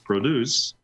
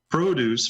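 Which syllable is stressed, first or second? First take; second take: second; first. First: The stress is on the second syllable. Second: The stress is on the first syllable. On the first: The word is a verb. "if you take the second syllable and accentuate that, then they're verbs" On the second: The word is a noun. "If you pronounce the first syllable the way I did, they're considered a noun"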